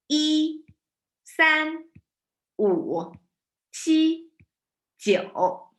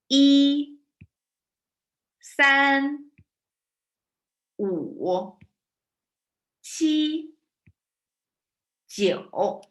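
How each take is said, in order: First: The numbers are counted at a faster pace. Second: The numbers are counted at a slower pace.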